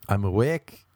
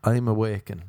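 First: "awake" ending cleanly on the k; "awake" with no -en ending, slightly rising; corrected "awake". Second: "awaken" said with an added -en ending; "awaken" ending in a weak "-ken"; faulty "awaken". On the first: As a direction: model "awake" with two syllables only. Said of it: "Say, "I'm awake". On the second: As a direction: quote "awaken" keeping the extra final syllable. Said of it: "Poor English". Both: Shown as a demonstration.

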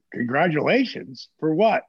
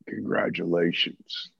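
First: Rising, confused for what; genuinely baffled asking back; puzzled question. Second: Low, slow, drawn-out congratulations; Jake's greeting. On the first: Answering Jake's call, puzzled and rising. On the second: Jake calling after a long silence, low and slow. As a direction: stretch it low and knowing. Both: Retold or imitated.

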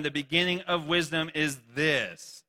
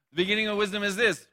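First: Slow, measured first reading. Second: Faster and louder, punching this; louder quicker reread. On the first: Reading the verse slowly to the congregation. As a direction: read it out slowly, weighing each word. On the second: Rereading the verse to the congregation, faster and louder. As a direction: fire it off quick, landing hard on this. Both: Shown as a demonstration. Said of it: "Oh, I don't know why it's up there like that".

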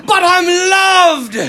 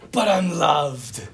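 First: High, loud, drawn-out Irish cry; Irish accent. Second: Slow, low, toned-down echo; gentle quoting. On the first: Imitating an Irish priest calling back to students, exultant Irish accent. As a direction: proclaim it slowly in a hammed-up Irish accent. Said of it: "this deep Irish accent". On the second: Preacher repeating the priest's saying to sum up the human condition, gentle and slow. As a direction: say it slowly, letting it fall gently. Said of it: "such a great way of saying". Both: Retold or imitated.

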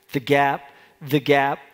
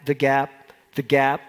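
Both takes have the same delivery.

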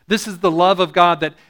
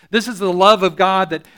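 Both takes have the same delivery.

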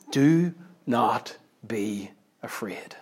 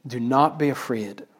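First: Very slow, hushed, word by word; hushed solemn quote. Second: Soft, connected phrase at normal pace; soft repeated quote. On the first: Preacher quoting Jesus to a congregation, hushed and very slow. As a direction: let each word fall softly, with space between. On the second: Preacher repeating Jesus's words to the congregation, softly. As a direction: repeat it quietly as one phrase. Repeats the verse more simply. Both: Acted.

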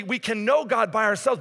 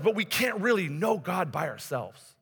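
First: "know" stressed, higher pitch. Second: Slow, with "really" emphasized; slow down and lean on "really"; stress on REALLY. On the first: Preacher concedes a point to congregation, stressing "know". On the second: Preacher qualifies the point for congregation, stressing "really". Corrects the conceded point, slower. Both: Real, not acted.

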